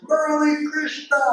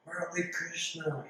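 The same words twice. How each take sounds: First: A high, ringing call of his name across the veranda; a bright, pitched-up shout of welcome; joyful call. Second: Happy greeting. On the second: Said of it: "he was so happy to see me". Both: Retold or imitated.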